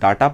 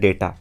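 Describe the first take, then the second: First: The first vowel sounds like 'ah'. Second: The first vowel sounds like 'ay'. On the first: This is how it is said in the village. The speaker calls it wrong. "अपने गांव घर में इसे हम लोग डाटा पढ़ देते" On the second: This is how it is actually said in English. The speaker calls it right. "इसको हम एक्चुअल में पढ़ते हैं डेटा"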